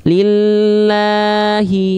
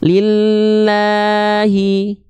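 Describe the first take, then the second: First: The long vowel is held on a level pitch. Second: The same.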